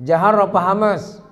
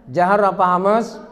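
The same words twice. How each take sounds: No difference in how they are said.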